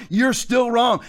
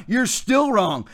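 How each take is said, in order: First: Raised, forceful declaration; emphatic shout. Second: Drawn out, word by word; slow and deliberate. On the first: Preacher shouting at pastors who locked down churches. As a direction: hammer the verdict home. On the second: Preacher slowly telling pastors they are still wrong. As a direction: spell out the verdict slowly. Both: Real, not acted. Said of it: "It doesn't matter how I say it".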